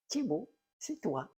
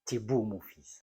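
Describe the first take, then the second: First: "tu es beau" run together high, like "Thibault"; mother's contraction. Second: Said in the usual way. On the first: Shown as a demonstration. Mimicking his mother to the audience, "tu es beau" blended into "Thibault". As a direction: slur "tu es beau" into one word, higher pitched. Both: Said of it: "il y a toute une intonation qu'il faut comprendre".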